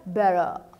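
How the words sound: A relaxed delivery with some sounds dropped. "o australiano... ele não fala todas as letras"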